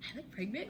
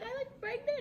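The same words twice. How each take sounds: First: Soft rising question; tentative disbelief. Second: Very high, delighted squeak; happy disbelief. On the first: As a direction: ask it quietly, hardly believing. First disbelieving question to boyfriend. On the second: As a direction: squeak it, thrilled. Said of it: "I got all happy". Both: Retold or imitated.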